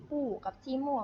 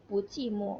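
First: "ปู้" and "จี้โม่" each in a falling fourth tone; teacher naming "ปู้" in fourth tone, before the tone change; fourth-tone citation. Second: "ปู" in rising second tone before falling "จี้โม่"; teacher reading "ปูจี้โม่" joined, first syllable in second tone; tone change demonstration. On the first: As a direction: cite "ปู้" with its original falling tone. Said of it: "ถ้าสมมุติว่ามันเป็นเสียงสี่". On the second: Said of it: "มันจะเปลี่ยนเป็นเสียงสอง". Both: Shown as a demonstration.

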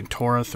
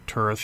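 First: "Torth" with an OR vowel; first pronunciation. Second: "Turth" with an UR vowel; alternative pronunciation. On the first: Game guide offering one way to say the name, "Torth" with an OR vowel. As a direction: say "Torth" to rhyme with north. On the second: Game guide offering another way to say the name, "Turth" with an UR vowel. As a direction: say "Turth" to rhyme with birth. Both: Shown as a demonstration. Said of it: "however you pronounce it".

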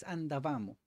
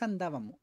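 First: "andavamo" with the stress moved to the third syllable; Italian-style stress on VA in "andavamo"; corrected Italian pronunciation. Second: "andábamos" with Spanish stress on the second syllable; the Spanish-style stress on DA in "andábamos"; uncorrected pronunciation. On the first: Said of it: "no es andábamos". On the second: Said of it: "un poco diferente ahí". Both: Shown as a demonstration.

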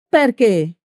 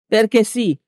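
First: Higher, falling cry of protest; mild yell. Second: Firm retort with falling tune, mildly aggressive; hard and aggressive. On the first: Dishevelled woman challenging Peppone, mild narrated yell. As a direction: throw the question out, pitched up. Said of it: "urlò la donna scarmigliata". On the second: Peppone answering the woman, hard and mildly aggressive. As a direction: shut the question down, raised in pitch. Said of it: "rispose Peppone, duro e aggressivo". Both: A narrator's reading.

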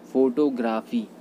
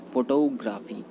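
First: फोटोग्राफी with full long o first; फोटोग्राफी drawn out, both o vowels full; common mispronunciation. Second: फोटोग्राफी with a reduced first vowel; फोटोग्राफी leaning on 'to'; correct pronunciation. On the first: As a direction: say फोटोग्राफी as 'FOH-to-graa-fee'. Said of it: "फोटोग्राफी नहीं होता". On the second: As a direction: say फोटोग्राफी as 'fuh-TOH-graa-fee'. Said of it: "ये होता है". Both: Shown as a demonstration.

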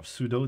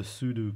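First: Sudo said as SOO-doh; alternative pronunciation. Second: Sudo said as SOO-doo; alternative pronunciation. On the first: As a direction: say sudo like pseudo. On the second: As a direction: say sudo with an "oo" ending. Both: Shown as a demonstration. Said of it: "depending on how you pronounce it".

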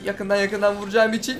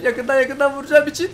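First: Said in the usual way. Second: Higher and louder, rising at the end; building excitement chant; hyped repeat. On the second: Real, not acted. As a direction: pump yourself up with it. Repeats the line, third take louder.

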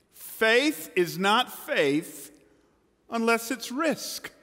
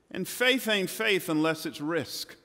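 First: "Faith is not faith" drawn out very slowly, higher; slow emphatic repeat. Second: Said in the usual way. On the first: Real, not acted. Preacher driving home his point, slow and emphatic. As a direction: spell out each word of "Faith is not faith unless it's risk".

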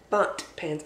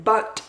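First: Said in the usual way. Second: Bunt said slowly, faint D at the end. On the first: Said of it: "I'm not saying butt". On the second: Shown as a demonstration. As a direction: say bunt slowly and clearly, landing the D. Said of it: "with a D in there".

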